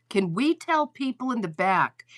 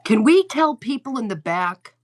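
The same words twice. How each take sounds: First: Said in the usual way. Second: Louder, higher, calling to the back rows. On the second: Shown as a demonstration. Host telling her live chat to spread the word, calling out loud. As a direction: project it so the back row hears.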